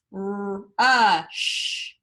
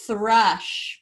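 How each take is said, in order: First: Thrush drawn out slowly; stretched blend. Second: Said in the usual way. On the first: Shown as a demonstration. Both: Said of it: "what you hear [name] blending".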